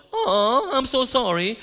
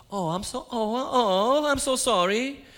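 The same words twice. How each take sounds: First: High, loud, laughing mock sympathy; mocking himself. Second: High, slow, hammed-up "oh, oh, oh, I'm so sorry"; gushing mock sympathy. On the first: Preacher mocks his own empty reply to the kid, laughing. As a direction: parody your own lame reply with a laugh. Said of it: "Like, duh, right?". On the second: Preacher retells how he gushed at a stranger, hammed-up. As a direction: stretch out an over-the-top, helpless sorry.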